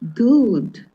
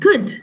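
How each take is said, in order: First: The vowel is long, as in 'food'. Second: The vowel is short, as in 'hood'. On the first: The speaker calls it wrong. "Why not good?" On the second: The speaker calls it right. "We say good"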